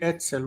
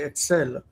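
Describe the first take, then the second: First: The stress is on the first syllable. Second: The stress is on the last syllable. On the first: This is the older form that follows the Segolate pattern. "in modern Hebrew we don't say etzel" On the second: This is how modern speakers say it. "we say etzel. Like we've moved the stress over here"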